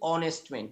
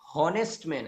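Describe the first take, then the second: First: The word begins with a vowel sound. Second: The word begins with an h sound. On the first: The speaker calls it right. "আমি বলেছি অনেস্ট man" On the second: The speaker calls it wrong. "আমি বলি নাই হনেস্ট man"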